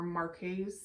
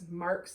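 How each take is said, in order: First: The word is said as two syllables. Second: The word is said as one syllable. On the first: "there's two different ways you can say that" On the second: "there's two different ways you can say that"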